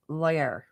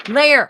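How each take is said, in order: First: Lair как «лойер», с неверным дифтонгом; mispronounced Lair. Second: Lair as lay-er, high and loud; corrected Lair. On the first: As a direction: say Lair wrongly, like loyer. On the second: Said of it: "she says that". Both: Shown as a demonstration.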